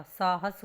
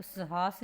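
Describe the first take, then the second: First: साहस said as "saahas"; long first "aa", short second vowel in साहस; correct pronunciation. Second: साहस said as "sahaas"; short first vowel, long second in साहस; wrong pronunciation. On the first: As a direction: clear saa-has for साहस. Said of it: "साहस होता है". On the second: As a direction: misread साहस as sa-haas. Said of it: "तो साहस नहीं होता". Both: Shown as a demonstration.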